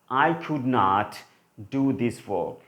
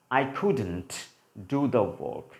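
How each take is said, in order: First: The words could not are said in full. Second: The words could not are contracted to couldn't. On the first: "one sentence is for could not" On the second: "if we try to use the contracted form of could not"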